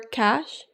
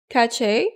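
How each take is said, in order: First: The word sounds exactly like cash. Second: The word does not sound like cash. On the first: The speaker calls it right. "Cache is pronounced like cash" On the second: The speaker calls it wrong. "I pronounced it the two f- ways"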